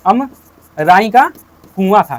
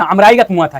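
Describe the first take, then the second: First: अमराई का drawn out very slowly, with a gap before कुआं; teacherly dictation, Amrai stretched in pieces; slow, broken-up repeat. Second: Said in the usual way. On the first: Shown as a demonstration. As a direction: spell it out slowly for the class, pausing after अमराई का. Teacher repeats answer for class.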